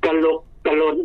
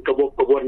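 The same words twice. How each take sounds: First: "กระลกกระล้น" with clear l sounds; correct pronunciation. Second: "กระวกกระวน" with w sounds in place of l; wrong pronunciation. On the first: Teacher modelling the word for the host, correctly pronounced with l. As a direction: say "กระลกกระล้น" with ล starting both stressed syllables. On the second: Teacher correcting the host, quoting the mispronunciation with w. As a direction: say "กระวกกระวน" with ว starting both stressed syllables. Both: Shown as a demonstration. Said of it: "บ่แม่นกระวกกระวนนี่ดอกซ่อน".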